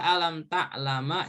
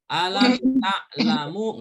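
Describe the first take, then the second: First: The last word ends with an a vowel. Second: The last word ends with an u vowel. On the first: "Dibaca alam ta'lama juga nggak boleh" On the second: "nggak boleh dibaca alam ta'lamu"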